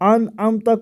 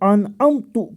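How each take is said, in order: First: The word ends with a 'ta' sound. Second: The word ends with a 'tu' sound. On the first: The speaker calls it right. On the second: The speaker calls it wrong.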